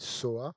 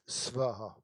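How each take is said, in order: First: It is said 'so-a', with no 'v' sound. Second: It is said 'sva-ha', with a clear 'v' sound. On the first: It follows the Tibetan way of saying it. "si vous voulez le prononcer à la tibétaine, vous dites soa" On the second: It follows the original Sanskrit. "Si vous voulez respecter le sanskrit, vous dites svaha"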